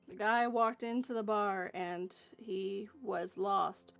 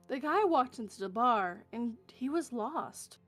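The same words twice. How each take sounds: First: It is said in a flat, plain reading tone. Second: It is said in a lively, expressive storytelling tone. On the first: The words are simply being read off the page. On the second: The words are being performed as a story.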